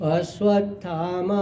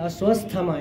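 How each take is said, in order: First: No extra s sound appears mid-word. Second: An extra s sound is added mid-word. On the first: The speaker calls it right. "અશ્વત્થામા એમાં સ ક્યાં આવતો જ નથી વચ્ચે" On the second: The speaker calls it wrong. "વધારાનો તમે સ બોલો છો"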